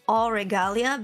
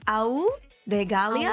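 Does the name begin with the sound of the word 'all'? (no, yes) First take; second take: yes; no. First: The first syllable sounds like 'all'. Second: The first syllable does not sound like 'all'. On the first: "you can also pronounce it as all regalia" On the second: "you pronounce it as au regalia"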